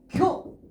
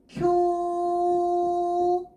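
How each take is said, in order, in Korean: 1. 모음을 짧게 끊어요. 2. 모음을 길게 늘여요. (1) "얘는 쿄 끝" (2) "쿄 장음이에요"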